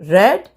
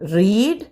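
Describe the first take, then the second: First: The vowel is a short 'e' sound. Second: The vowel is a long 'ee' sound. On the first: It is the past form. "പക്ഷെ നമ്മൾ ഉച്ചരിക്കേണ്ടത് റെഡ്" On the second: It is the present base form. "V one base form റീഡ്"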